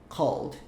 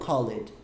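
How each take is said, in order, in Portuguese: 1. É dita como uma sílaba, call mais d. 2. É dita como duas sílabas, pronunciando o e. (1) "Como se fosse a pronúncia do call original, call, e aí você colocou um Dzinho" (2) "e não called... tem um E ali... mas não insiste"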